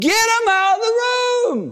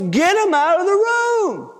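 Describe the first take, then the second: First: Very high, straining shout; shouted order. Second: High, insistent grandpa command; imitated grandpa losing patience; forceful order. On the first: Acted. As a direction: cut in with an exasperated yell. Grandpa cuts in shouting order. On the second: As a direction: order everyone out, pitched high. Grandpa repeats order more forcefully.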